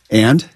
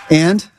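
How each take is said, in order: First: Terse, challenging one-word question; one word, demanding an explanation. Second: Higher, gently prompting question; softer. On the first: Coach as stepfather with arms crossed, challenging. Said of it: "intonation of what it is that he's saying". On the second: Coach as stepfather leading the child, softer. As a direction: coax it out with a lifted pitch. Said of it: "just a little bit softer". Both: Acted.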